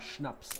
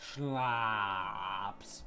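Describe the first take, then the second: First: The a vowel is short and clipped. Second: The a vowel is drawn out, American-style. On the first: The speaker calls it right. "the concept of a short A. As in" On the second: The speaker calls it wrong. "As the Americans would say"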